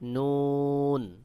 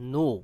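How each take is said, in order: First: The name ends with a clear final n sound. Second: The name ends on a vowel with no final n. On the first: The speaker calls it right. "সহিহ উচ্চারণ হলো নুন" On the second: The speaker calls it wrong. "কেউ কেউ বলে নু, এটা সহিহ উচ্চারণ নয়"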